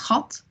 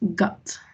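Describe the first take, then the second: First: The first sound is a rough throaty rasp. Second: The first sound is a hard English g. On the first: The speaker calls it right. "we always say J" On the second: The speaker calls it wrong. "So not gut. Never do that"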